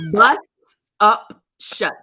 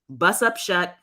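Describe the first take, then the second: First: The phrase is said slowly and carefully. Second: The phrase is said at a normal, quick pace.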